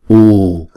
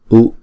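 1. Nguyên âm được giữ trong hai nhịp dài. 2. Nguyên âm được giữ trong một nhịp ngắn. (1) "chúng ta sẽ đọc hai nhịp" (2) "chúng ta sẽ đọc một nhịp"

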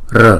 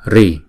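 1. Sau r không có nguyên âm. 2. Sau r là nguyên âm i. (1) "một số vùng miền khác đọc là R" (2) "Có một số vùng miền đọc là Ri"

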